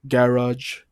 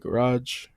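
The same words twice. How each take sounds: First: It is said in a British accent. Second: It is said in a North American accent. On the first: "U K say it like" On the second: "we say"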